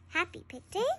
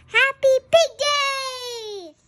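First: Softer, rising puzzled echo of "Happy Pig Day"; confused reply to the cheer; puzzled question. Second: High, loud and slow, cheering the big news; joyful announcement of the holiday; excited cheer. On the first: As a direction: ask it back, unsure what it means. Gerald asking back, puzzled. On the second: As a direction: shout it out like the best news ever. Piggie cheering the big day. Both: Acted.

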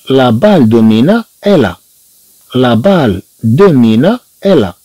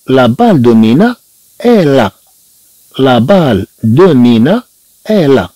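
Both takes have the same delivery.

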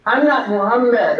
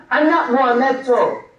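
First: "Muhammad" said properly as Mu-HAM-mad, with no extra ending; "Muhammad", pronounced the right way; correct name. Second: "Muhammedto" said as Mu-HAM-med-to, a foreign poet's garbled version of the name; "Muhammedto", the name mangled on purpose; mispronounced name. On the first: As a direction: give "Muhammad" its true form, crisp and correct. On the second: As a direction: sound out "Muhammedto" with an extra -to ending, as Dante wrote it. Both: Shown as a demonstration. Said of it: "however they think they can pronounce that name".

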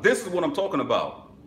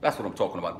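First: High, loud and excited; hyped up. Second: Said in the usual way. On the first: Real, not acted. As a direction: shout it out with hype. Repeats phrase, second time hyped.

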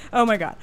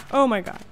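Both takes have the same delivery.

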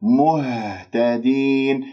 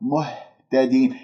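First: مهتدين with a resonant, held ه; measured recitation, long final "deen"; voiced clear ha. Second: مهتدين with ه as mere puffed air; faulty breath-only h in مهتدين; airy ha, wrong. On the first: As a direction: finish the u, then vibrate the ha in مهتدين, very slowly. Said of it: "خلصوا الحركات". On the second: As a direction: push lung air through the ha of مهتدين. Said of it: "هواء خارج من الرئة". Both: Shown as a demonstration.

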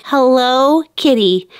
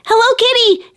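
First: Said in the usual way. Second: Higher, bright run-together Hello Kitty; realizing. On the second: Shown as a demonstration. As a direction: it clicks: say Hello Kitty as one name. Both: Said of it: "I remember I said".

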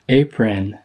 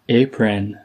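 No difference in how they are said.

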